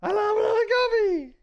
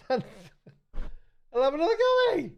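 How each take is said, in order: First: Very high and a bit louder; high falsetto. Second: High, slow, with a laugh. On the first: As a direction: squeal it in falsetto. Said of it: "which was". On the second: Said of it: "That last line was". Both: Shown as a demonstration.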